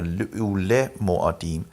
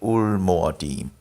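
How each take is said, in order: First: A short vowel is sounded after the l. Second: The l runs straight into the m. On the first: This is how the other reader says it. "he's using like uleyamim, yeah, ulemoadim instead of" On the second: This is the form the speaker expected. "instead of saying ulmoadim"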